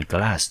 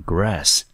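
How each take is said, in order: First: "glass" with a clear L after the G. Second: "grass" with a clear R after the G. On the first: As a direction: say "glass", L sound, not R. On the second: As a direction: say "grass", R sound, not L. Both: Shown as a demonstration. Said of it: "两个的发音跟意思跟都不一样".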